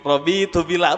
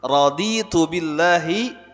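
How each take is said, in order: First: The first word begins with a 'robi' sound. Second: The first word begins with a 'radi' sound. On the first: The speaker calls it wrong. "apa Robi tu billah" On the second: The speaker calls it right. "Padahal raditu billahi rabba"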